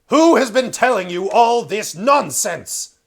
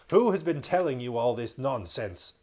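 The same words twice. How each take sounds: First: The line is spoken in a loud, booming thunderous voice. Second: The line is spoken in a milder, less thunderous voice. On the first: The speaker calls it right. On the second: The speaker calls it wrong.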